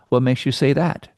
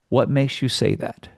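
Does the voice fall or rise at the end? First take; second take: rises; falls. First: The voice rises at the end. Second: The voice falls at the end.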